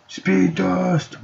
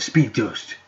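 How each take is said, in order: First: Much higher, drawn-out call; power-move call. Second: Said in the usual way. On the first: Pretend. Player invoking the speed power, high showy call. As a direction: announce the power in a high held pitch. Calls out the power just named.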